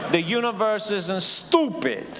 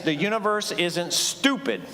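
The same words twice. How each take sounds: First: It is said in a put-on New York accent. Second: It is said in the speaker's plain voice.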